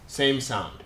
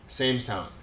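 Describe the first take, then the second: No difference in how they are said.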